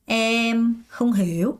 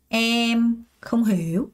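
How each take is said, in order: No difference in how they are said.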